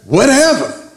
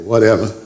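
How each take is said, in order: First: Firm, generous "Whatever." meaning anything at all; grand emphatic whatever. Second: Imitating a son's shrug of a "whatever."; teen's dismissive whatever. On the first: Acted. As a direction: give "Whatever." as God's all-covering promise. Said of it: "but God just says". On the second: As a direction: toss off "whatever." like a sulky son. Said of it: "till my son started using it".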